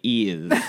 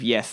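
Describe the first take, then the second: First: The word is said in a posh royal accent. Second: The word is said in a plain everyday accent. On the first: "they say ears" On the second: "instead of yes"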